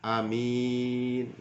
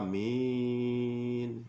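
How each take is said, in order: First: The first vowel is short, the second long. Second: Both vowels are drawn out long. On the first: "alifnya pendek, mim min mimnya panjang" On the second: "Membaca panjang semua"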